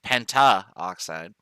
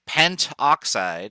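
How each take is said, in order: First: A vowel is heard between 'pent' and 'oxide'. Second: No vowel is heard between 'pent' and 'oxide'. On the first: The speaker calls it wrong. "instead of pentaoxide" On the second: The speaker calls it right. "We drop the A to make it sound better"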